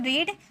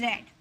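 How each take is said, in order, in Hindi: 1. स्वर लंबा है, 'reed' की तरह। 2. स्वर छोटा है, 'red' की तरह। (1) "फर्स्ट फॉर्म में रहता है तो रीड" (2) "थर्ड फॉर्म भी रेड"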